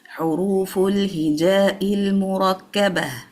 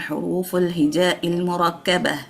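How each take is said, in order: First: Each vowel is given its full length. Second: The vowels are rushed and cut short. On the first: The speaker calls it right. "No, it is" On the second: The speaker calls it wrong. "It's not"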